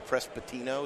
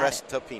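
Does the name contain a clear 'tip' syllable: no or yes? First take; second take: no; yes. First: The P comes before the T in the name. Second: The middle is said clearly as 'tip'. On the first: The speaker calls it wrong. "Everybody says the P before the T" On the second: The speaker calls it right. "With a T. Think tip"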